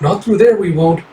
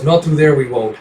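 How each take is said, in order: First: Put-on raised into the young girl's high voice by mistake; the high girlish take, not the cat's voice; fox-girl voice. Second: Said in the usual way. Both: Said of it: "sorry, the cat goes".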